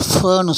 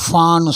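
First: ஃபன்னு with a neutral "fuh" vowel; fer vowel. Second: ஃபான்னு with a wide open "faa"; long faa. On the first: Teacher contrasts two examples, neutral fuh in ஃபன்னு. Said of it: "ஃபன்னு சொல்லணும்". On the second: Teacher contrasts two examples, long open faa in ஃபான்னு. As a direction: stretch the AA in ஃபான்னு. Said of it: "ஃபா நீட்டி சொல்லணும்". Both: Shown as a demonstration.

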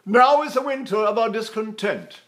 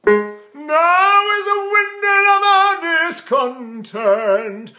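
First: Raised, projected Shakespeare line; theatrical recitation. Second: Sung, loud, high, slow intoned line; sung high resonance. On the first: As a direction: declaim it into the mask. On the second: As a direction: sing the words out operatically in head resonance. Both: Shown as a demonstration. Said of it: "I can talk all day like that".

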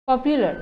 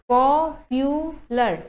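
First: Said in the usual way. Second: popular slowly cut into three syllables. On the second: Shown as a demonstration. Teacher showing three syllables, popular slow and segmented. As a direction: stretch and separate each part of popular. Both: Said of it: "তিনিটা syllable হ'ব".

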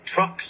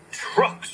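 First: Said in the usual way. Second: Breathy cross mutter, no voice; a touch of cross engine. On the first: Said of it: "said his driver". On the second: A narrator's reading. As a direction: spit it out, grumpy. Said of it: "said Gordon crossly".

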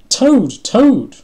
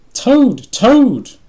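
First: High, loud, more desperate shout; crying out. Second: Loud, high-pitched calling shout; excited shout. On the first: Frog calling unanswering Toad, crying out desperately. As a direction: call out with urgency. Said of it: "cried Frog". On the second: Frog at Toad's door, shouting to wake him. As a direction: holler a friend's name to wake him. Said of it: "shouted Frog". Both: A narrator's reading.

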